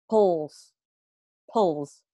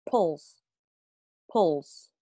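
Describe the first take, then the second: The two takes are said the same way.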